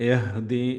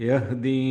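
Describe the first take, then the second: Both takes have the same delivery.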